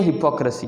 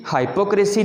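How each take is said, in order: First: हिपोक्रेसी as "hi-POK-ruh-si"; correct pronunciation. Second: हाइपोक्रेसी as "high-po-CRAY-si"; wrong pronunciation. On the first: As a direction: stress pok in हिपोक्रेसी, short "hi". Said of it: "हिपोक्रेसी है". (सही तलफ़्फ़ुज़, हिपोक्रेसी यानी "हिपॉक्रसी") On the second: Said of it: "हाइपोक्रेसी नहीं है". (गलत तलफ़्फ़ुज़, हाइपोक्रेसी में "हाइ" और "क्रे") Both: Shown as a demonstration.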